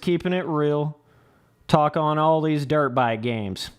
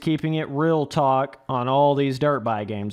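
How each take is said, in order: First: There is a break after the word real. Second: Real and talk run together without a break. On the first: The speaker calls it wrong. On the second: The speaker calls it right.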